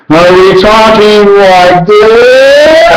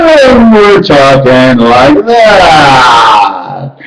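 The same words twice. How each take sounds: First: Slow, drawn-out and higher; a slow, lifted demo of how we talk. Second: Very slow, shouted out; talking like that. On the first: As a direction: stretch every word out, pitched up. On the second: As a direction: drag the words out in a shout. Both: Shown as a demonstration. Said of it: "It's our talking and how we talk".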